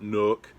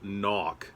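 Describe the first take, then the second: First: The vowel sounds like the one in book. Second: The vowel sounds like the one in sock. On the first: The speaker calls it wrong. "It is not Nook" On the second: The speaker calls it right. "It is [name]"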